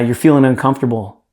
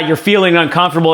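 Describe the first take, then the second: First: It is said slowly and softly. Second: It is said quickly and flippantly. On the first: The listener's feelings are taken seriously. The speaker calls it right. "Slow down your tone" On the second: The listener's feelings are brushed aside. The speaker calls it wrong. "You don't go"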